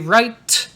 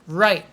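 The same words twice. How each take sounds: First: The final T is clearly released. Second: The final T is stopped and not released. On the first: The speaker calls it wrong. "Don't say right" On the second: The speaker calls it right. "the sound is a stop. It goes away"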